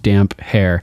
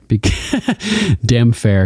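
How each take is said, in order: First: The p and h are said as separate sounds. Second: The p and h merge into one f sound. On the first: The speaker calls it right. "instead of separating them as two, like they were two words combined" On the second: The speaker calls it wrong. "mispronounces it. He calls him the Damfair"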